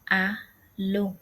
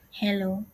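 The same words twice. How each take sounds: First: "a lo" starting on the vowel, no H; "a lo" as German Hallo without its H; silent H. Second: Said in the usual way. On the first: Shown as a demonstration. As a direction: say "a lo" with the H dropped. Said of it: "Rather, it's pronounced as". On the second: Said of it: "H is not pronounced in the word".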